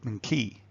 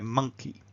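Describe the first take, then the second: First: The stress is on the second syllable. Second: The stress is on the first syllable. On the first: The speaker calls it wrong. "if we unstressed the first syllable and stressed the second" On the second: The speaker calls it right. "that first syllable is kind of big and round and strong"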